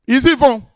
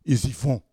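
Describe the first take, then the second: First: Ils y vont, louder and higher, stress on y; emphatic repeat. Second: Said in the usual way. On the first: Shown as a demonstration. Preacher insists the disciples go, loud and high. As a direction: hammer home ils y vont.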